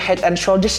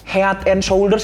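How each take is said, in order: First: It is said with English pronunciation. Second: It is read letter by letter as spelled.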